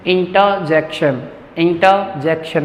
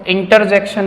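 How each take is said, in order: First: Slow "intaa-jekshan" for इंटरजेक्शन; correct pronunciation. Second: इंटरजेक्शन with R sounded, "inter-jekshan"; wrong pronunciation. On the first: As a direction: stretch इंटरजेक्शन, open vowel in place of R. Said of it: "मैं आर sound नहीं कर रहा हूँ". (इंटरजेक्शन धीरे, र के बिना) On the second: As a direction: show the mistaken R in इंटरजेक्शन. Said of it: "नहीं पढ़ेंगे". (इंटरजेक्शन में र बोलकर) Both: Shown as a demonstration.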